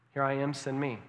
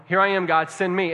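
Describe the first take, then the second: First: Said in the usual way. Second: Loud, eager volunteer; loud eager cry of a willing volunteer; emphatic. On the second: Retold or imitated. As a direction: call it out boldly, ready to go. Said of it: "Isaiah was emphatic".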